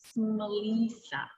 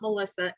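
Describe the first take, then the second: First: The i is said as a long vowel. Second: The i is said as a short vowel. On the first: The speaker calls it right. "It's a long I" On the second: The speaker calls it wrong. "but it's not Melissa"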